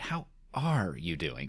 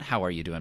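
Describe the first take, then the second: First: It is said as a caring, sincere question. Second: It is said as a quick, casual greeting.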